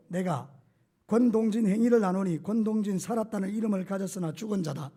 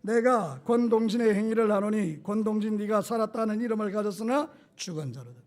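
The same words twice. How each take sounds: First: Reading with own name inserted. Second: Congregation-style reading. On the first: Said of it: "이렇게 읽는 거예요". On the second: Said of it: "자, 준비, 시작". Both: Shown as a demonstration.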